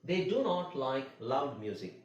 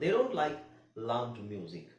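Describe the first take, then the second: First: Do not is said as two full words. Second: Do not is contracted into one word.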